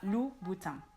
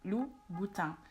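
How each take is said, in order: First: The final N sound is silent. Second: The same.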